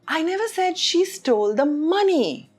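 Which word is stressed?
money. The stress falls on the word money. She stole something else. "which means she stole something else"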